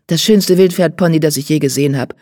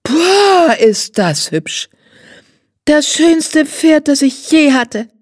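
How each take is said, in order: First: Lightly voiced riding teacher, "schönste" leaned on; a grown man bragging about a wild pony; proud riding teacher. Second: Put-on high, drawn-out child's delight, "Pferd" stretched; a spoiled girl swooning over the pony; high, slow, wide-eyed girl's rapture; gushing little girl. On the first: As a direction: Jan praising the pony in near-plain voice. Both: A narrator's reading.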